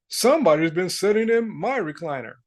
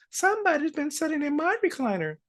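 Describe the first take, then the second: First: Lightly voiced father bear; a hint of a put-on papa-bear voice. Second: High-pitched mother bear voice; Mama Bear. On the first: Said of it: "And Papa Bear said". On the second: Acted. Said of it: "Mama Bear says".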